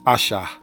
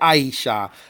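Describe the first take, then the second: First: The first vowel sounds like "ah". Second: The first vowel sounds like "eye". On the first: The speaker calls it right. "You want to say the ah, the ah sound" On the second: The speaker calls it wrong. "Don't say I. Don't say Aisha, because that would be I"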